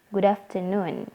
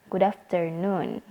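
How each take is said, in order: The two takes are said the same way.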